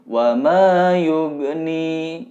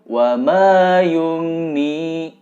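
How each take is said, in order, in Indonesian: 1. Bunyi gh diakhiri dengan pantulan kecil. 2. Bunyi gh diakhiri tanpa pantulan. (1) "pantulannya kecil" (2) "tidak memantul"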